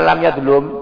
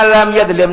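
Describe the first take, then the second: First: The verb's last syllable has a u vowel. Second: The verb's last syllable has an i vowel. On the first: The speaker calls it wrong. "jangan dibaca lam yadhlum" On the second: The speaker calls it right. "dzalama yadhlimu"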